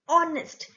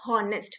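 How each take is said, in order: First: The word begins with a vowel sound. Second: The word begins with an H sound. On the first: The speaker calls it right. "we say honest. So honest O sound is there" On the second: The speaker calls it wrong. "we never say honest"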